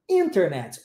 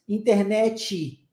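First: Internet with IN punched, low falling end; stress on first syllable. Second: Slow Brazilian Portuguese "Internet", inter-NÉ-tchi; Brazilian accent. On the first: Teacher showing English word stress, Internet stressed at the start. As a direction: say "Internet" English-style, IN-ternet. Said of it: "o foco é no in, no início da palavra". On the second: Teacher showing what Brazilians do, Brazilian-accented Internet. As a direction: Brazilian stress on the end of Internet, added final "i". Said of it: "Dá o foco lá no final". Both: Shown as a demonstration.

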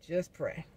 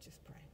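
First: Said in the usual way. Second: Whisper. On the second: Real, not acted. Repeating plea, fades to whisper.

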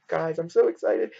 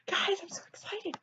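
First: Said in the usual way. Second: Much higher and softer, a tiny squeal; squeaky excited. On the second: Real, not acted. Telling viewers again she's excited, in a squeak. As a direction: squeak it out, bursting with glee. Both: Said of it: "I said that now, like, twelve times".

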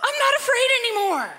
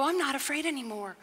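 First: Put-on high, breathless kid voice, half laughing; imitating the boy from Home Alone with a laugh; Macaulay Culkin impression. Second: Softer, steady and settled; a calm answer to fear, not acted; calm resolve. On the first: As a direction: play the scared kid finding his nerve. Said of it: "you remember that movie when he goes". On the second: Shown as a demonstration. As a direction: say it like quiet faith, no drama. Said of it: "You can look at life and go".

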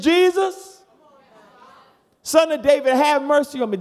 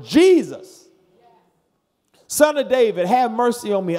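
First: High, loud desperate cry; louder holler. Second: Loud crying out to Jesus; hollered plea. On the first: Blind man shouting over the crowd, higher holler. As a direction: holler even louder to be heard. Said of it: "He said". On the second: Blind man crying out to Jesus, loud holler. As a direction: holler it across the road. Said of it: "he hollered". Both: Retold or imitated.

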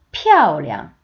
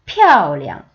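First: 피아오리앙 again, sharp falling tone on 피아오, light neutral 리앙; 피아오리앙 with fourth tone on 피아오 and neutral 리앙; tone demo repeated. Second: 피아오리앙 with a falling fourth tone on 피아오 and a toneless light 리앙; 피아오리앙 said with a sharp fall on 피아오; tone demo. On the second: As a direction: drop hard on 피아오, then let 리앙 go light. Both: Shown as a demonstration. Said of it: "피아오는 사성".

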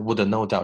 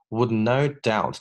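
First: Would no doubt with the d released as wood-uh; wrong would no doubt with a full d. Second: Would no doubt with the d barely there; right would no doubt, slower, d soft. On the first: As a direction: hit the d of would hard. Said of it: "我没有读成would no doubt". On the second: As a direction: ease the d of would into no. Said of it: "是would no doubt". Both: Shown as a demonstration.

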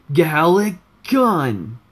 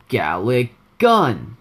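First: Full drawn-out attack yell, pitched up; Rice. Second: Slow, half-yelled attack name; Rice. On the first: Gamer retrying his character's attack, louder higher yell. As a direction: yell the move name slow and high. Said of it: "let me try it again". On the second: Gamer's first try at his character's attack, slow held-back yell. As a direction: draw out the move name with only a partial yell. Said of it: "I was supposed to, like, yell a little bit". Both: Shown as a demonstration.

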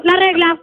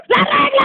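First: Said in the usual way. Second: High-pitched impatient call; exasperated teacher, pitched high; demanding yell. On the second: Acted. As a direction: call out sharply for the prop. Teacher demands ruler, escalating.

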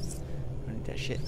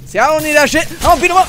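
First: Breathy whispered refusal, soft. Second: Loud, higher shout of refusal. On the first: Refusing the offered gun in a whisper. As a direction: whisper it, almost to yourself. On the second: Refusing the offered gun with a triumphant shout. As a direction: yell it out, defiant. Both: Acted.

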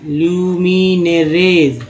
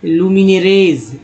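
First: ल्यूमिनेरेज stretched slowly with a falling finish; slow careful demo. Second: Said in the usual way. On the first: Shown as a demonstration. Teacher slowly sounding out ल्यूमिनेरेज for students. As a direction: drag out ल्यूमिनेरेज syllable by syllable. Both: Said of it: "यहाँ देखिए".

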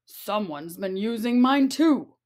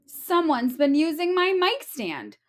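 First: Papa Bear voice. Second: Mama Bear voice. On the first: Papa Bear finds mic stand. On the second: Mama Bear finds mic stand. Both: Acted.

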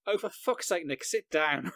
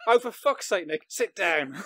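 First: Snapped, exasperated at a flustered colleague; exasperated outburst. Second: Mock exasperation through laughter; laughing retelling. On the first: Retold or imitated. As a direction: blurt it out in frustration. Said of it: "lip read me going". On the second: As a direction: repeat the outburst while laughing, higher and louder. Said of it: "Just me going".

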